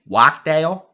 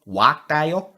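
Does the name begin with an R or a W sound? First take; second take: W; W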